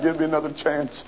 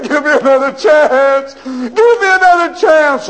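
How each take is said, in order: First: Soft worn-out "Give me another chance."; weary quiet plea. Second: High, loud begging cry; desperate wailing. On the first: Prisoner pleading softly after a day of crying. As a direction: let it sink, exhausted. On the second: Prisoner crying out down the hallway for another chance. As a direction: plead with all he has left. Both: Acted. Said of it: "shook the bars and cried".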